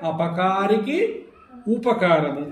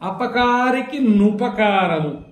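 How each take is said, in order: First: The words are separate; the second begins with u. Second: The words are joined; the second begins with nu. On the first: "విడిగా పలికితే" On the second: "రెండు కలిపి పలికితే"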